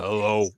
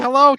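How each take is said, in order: First: It is said in a low, deep voice. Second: It is said in a high, squeaky voice. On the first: The same boy after his voice broke is speaking. "it was like overnight his voice changed" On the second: A young boy before puberty is speaking. "he had a pretty squeaky voice"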